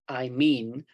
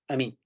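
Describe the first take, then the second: First: It is said slowly and loudly. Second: It is said quickly and quietly. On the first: The speaker calls it wrong. "we don't say" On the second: The speaker calls it right. "we might say"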